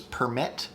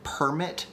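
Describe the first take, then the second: First: "permit" with the second syllable stressed. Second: "permit" with the first syllable stressed. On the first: Streamer contrasting word stress, "permit" stressed on second syllable. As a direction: lean on the "mit" in "permit". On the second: Streamer contrasting word stress, "permit" stressed on first syllable. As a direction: punch the "per" in "permit". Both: Shown as a demonstration. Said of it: "but there's different stress".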